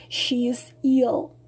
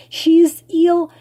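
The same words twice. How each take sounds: First: Said in the usual way. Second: "ill" hit loud and high; emphatic repeat. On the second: Real, not acted. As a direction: punch "She is ill" louder and higher.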